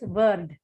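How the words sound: It starts with a 'v' sound. The speaker calls it wrong. "wrongly as word in Tamil. So you use V instead of W"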